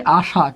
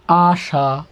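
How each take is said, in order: First: Said in the usual way. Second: "আশা" drawn out in two parts; syllable by syllable. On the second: Shown as a demonstration. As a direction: stretch "আশা" as আ, then শা, held apart. Teacher breaks word into sounds.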